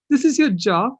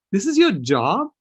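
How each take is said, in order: First: Much higher and louder repeat of the question; imitating shocked child. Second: Higher, louder astonished question; imitating surprised child. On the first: Granddaughter repeating to grandpa in disbelief, much higher and louder. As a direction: push the disbelief up a notch. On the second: Granddaughter asking grandpa about his job, surprised and louder. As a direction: echo a granddaughter's disbelief, rising. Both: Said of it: "looked at me wide-eyed in surprise".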